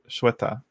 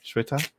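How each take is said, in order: First: Shweta stated firmly, falling at the end; corrected name. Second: Shweta? asked with a rising, doubtful tune; unsure check. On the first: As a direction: settle on the name Shweta, said as SHWEH-tuh. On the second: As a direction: try the name Shweta again, ending up as a question. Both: Shown as a demonstration. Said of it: "but no, it's Sh".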